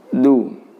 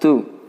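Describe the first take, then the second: First: The d is between light and heavy. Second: The d is heavy and hard, almost like t. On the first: The speaker calls it right. "tapi du" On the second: The speaker calls it wrong. "terlalu keras pula, sehingga dibaca sangat tebal dan menghentakkan"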